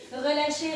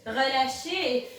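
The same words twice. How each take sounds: First: Said in the usual way. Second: Long stretched relâchez; drawn-out release cue. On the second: Shown as a demonstration. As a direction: drag out relâchez slowly.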